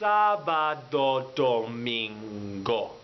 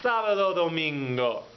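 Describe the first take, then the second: First: It is said slowly. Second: It is said at normal speed.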